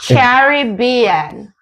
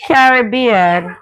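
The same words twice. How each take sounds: First: Caribbean drawn out very slowly, syllable by syllable; Caribbean spelled out slowly, every syllable clear; slow careful Caribbean. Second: Caribbean said slowly, stress on rib; Caribbean with the Jamaican stress on rib, drawn out; Jamaican pronunciation. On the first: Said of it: "That's the wrong way". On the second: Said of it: "say it in my accent". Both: Shown as a demonstration.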